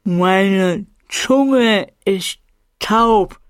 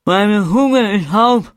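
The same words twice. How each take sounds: First: Very slow, carefully spaced words; overly exact. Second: Slurred, slow, thick-tongued mumble; numb tongue. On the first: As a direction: force each word out precisely. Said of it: "sprach dabei so exakt, wie ich konnte". (Ich spreche überdeutlich mit tauber Zunge, sehr langsam) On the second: (undeutlich mit tauber Zunge, langsam und lallend) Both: Acted.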